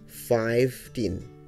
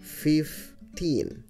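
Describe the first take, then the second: First: The first part sounds like the word five. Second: The first part is pronounced as fif. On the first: The speaker calls it wrong. "bukan fifteen ya" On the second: The speaker calls it right. "tapi fifteen"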